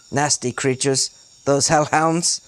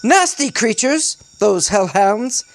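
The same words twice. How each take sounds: First: Said in the usual way. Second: High, theatrical British exclamation; animated British character voice, pitched up; forced British accent. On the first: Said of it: "I'm gonna reread that 'cause it sucks so bad". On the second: A narrator's reading. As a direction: declaim it high in put-on British. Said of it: "I'm gonna reread that".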